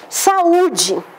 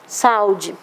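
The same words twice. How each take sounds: First: The u stands alone as its own syllable. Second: The u glides together with the a in one syllable. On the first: The speaker calls it right. "Para marcar que esse U é vogal, vai fazer hiato, vai ficar numa sílaba sozinha" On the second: The speaker calls it wrong. "se eu tirasse esse acento, ficaria saúde"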